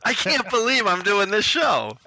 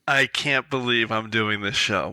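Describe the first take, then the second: First: It sounds excited, as if thrilled to be there. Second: It sounds dismayed, as if regretting it.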